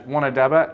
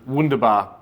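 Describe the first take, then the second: First: The name is said as 'wanadaba'. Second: The name is said as 'wunderbar'. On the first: The speaker calls it wrong. "I pronounced my impact bet as Wanadaba" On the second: The speaker calls it right. "instead of um, Wunderbar"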